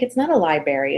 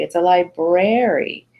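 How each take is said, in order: First: "library" said as "lie-berry", R after B dropped; mispronounced library. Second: "library" slowly, as "lie-BRARE-ee"; carefully corrected library. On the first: Mom correcting her kid, "library" as "lie-berry". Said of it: "I was saying library". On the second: Mom correcting her kid, "library" slow with full BR. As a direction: stretch out the BR in "library", clearly sounded. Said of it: "I don't say library". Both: Retold or imitated.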